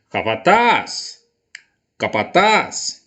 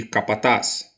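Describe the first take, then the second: First: Slow call with a stretched, rising TAZ in "Capataz"; long, swooping last syllable in "Capataz"; calling at the gate. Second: Said in the usual way. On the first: Shown as a demonstration. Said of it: "Vou chamar a palavra no portão".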